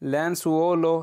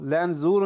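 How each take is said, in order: First: The middle consonant is an s sound. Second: The middle consonant is a z sound. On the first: The speaker calls it wrong. "ایس کی آواز نکلنے لگی" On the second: The speaker calls it right. "لینزولو ہی پڑھ دینا ٹھیک ہے"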